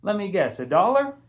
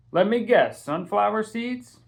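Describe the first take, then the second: First: Higher, louder cheeky comeback; teasing echo. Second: Put-on higher, louder, knowing old-man tease; teasing shopkeeper. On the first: Castle mimicking Mister Charles's guess back at him, cheeky higher tone. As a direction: throw his own line right back at him. Castle echoes the shopkeeper's tease. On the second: Shopkeeper Mister Charles guessing Castle's usual order, playful higher tease. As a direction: rib the regular kid like you know his order. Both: A narrator's reading.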